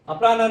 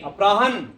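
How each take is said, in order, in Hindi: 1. "h" के बाद एक स्वर ध्वनि बोली जाती है। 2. "h" के बाद कोई स्वर ध्वनि बोली नहीं जाती। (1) "इसको बोलेंगे अपराहन नहीं" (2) "अपरा में ह में अ नहीं"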